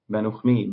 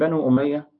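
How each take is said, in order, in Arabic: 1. تبدأ الكلمة الثانية بصوت 'kh' خشن. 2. تبدأ الكلمة الثانية بحرف علّة حنجري.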